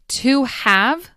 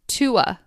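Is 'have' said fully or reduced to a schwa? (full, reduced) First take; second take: full; reduced. First: The word 'have' is said in full. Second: The word 'have' shrinks to a schwa sound. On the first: "To have becomes" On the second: "becomes tua"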